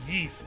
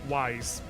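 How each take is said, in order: First: The name rhymes with geese. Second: The name rhymes with eyes. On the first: The speaker calls it right. "I heard someone call it yeast" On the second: The speaker calls it wrong. "I sure as shit did pronounce that shit wise"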